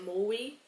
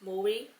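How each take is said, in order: First: The R sound becomes a W-like sound. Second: The same.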